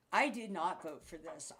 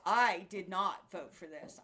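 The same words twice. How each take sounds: First: Said in the usual way. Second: Louder, slower, every word hammered; emphatic repeat. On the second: Real, not acted. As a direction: hammer it home slowly.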